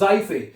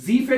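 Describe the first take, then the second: First: The first vowel sounds like 'eye'. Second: The first vowel sounds like 'ee'. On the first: The speaker calls it right. "ई को हमने आई पढ़ दिया" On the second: The speaker calls it wrong. "जीफे नहीं पढ़ना है इसको"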